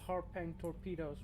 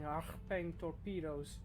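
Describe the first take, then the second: First: The first word is said plainly, without throat sounds. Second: The first word has a harsh, guttural throat sound. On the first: "however you want to pronounce it" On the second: "the amount of phlegm from saying"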